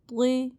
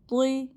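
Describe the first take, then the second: No difference in how they are said.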